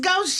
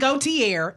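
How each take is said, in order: First: The name ends with a 'shay' sound. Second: The name ends with a 'tee-ay' sound. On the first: The speaker calls it right. "it's Gaucher" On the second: The speaker calls it wrong. "it's not Gautier"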